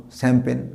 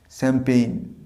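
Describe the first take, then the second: First: শ্যাম্পেন with a flat pen ending; the common wrong শ্যাম্পেন; wrong champagne. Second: শ্যাম্পেইন ending in a pain glide; correct champagne. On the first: Teacher showing the wrong শ্যাম্পেন. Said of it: "ভুল উচ্চারণ করি শ্যাম্পেন". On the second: Teacher giving the right শ্যাম্পেইন. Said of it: "উচ্চারণটা হবে". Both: Shown as a demonstration.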